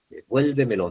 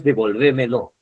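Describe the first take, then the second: First: "Devuélvemelo" stressed on VUÉL, de-VUÉL-vemelo. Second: "devolvémelo" stressed on the third syllable, VÉ; wrong stress on VÉ. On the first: Teacher contrasts it with a common error, stress on VUÉL. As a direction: hit the second syllable, VUÉL, in "Devuélvemelo". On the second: Teacher shows students what not to say, stress on VÉ. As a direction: shift the stress to de-vol-VÉ-melo in "devolvémelo". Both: Shown as a demonstration. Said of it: "no es devolvémelo".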